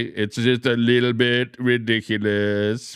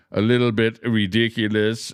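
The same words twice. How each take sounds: First: Slow, drawn-out mock Trump voice; Donald Trump impression. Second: Said in the usual way. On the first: Streamer quoting Trump to his chat, slow mock Trump drawl. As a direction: lightly imitate Trump, stretching each word. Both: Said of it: "as Donald Trump would say".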